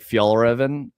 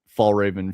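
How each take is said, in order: First: The name is said with its native pronunciation. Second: The name is said with an American pronunciation. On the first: Listeners may not understand what is meant. "If you go like Fjallraven, then they're like, what?" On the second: Listeners understand what is meant. "Americans that say Fall Raven"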